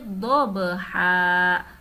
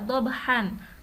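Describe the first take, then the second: First: The word ends with a long open vowel. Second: The word ends with an n sound. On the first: The reading stops at this word. "karena diwaqafkan atau dibaca berhenti" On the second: The reading continues without stopping. "tidak diwaqafkan atau diwasolkan"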